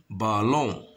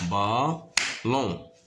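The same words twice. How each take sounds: First: Said in the usual way. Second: "ballon" in two separated beats; stretched "ballon" with a gap; syllable by syllable. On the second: Shown as a demonstration. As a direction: sound out "ballon" as ba, pause, lon. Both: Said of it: "se compose de deux syllabes".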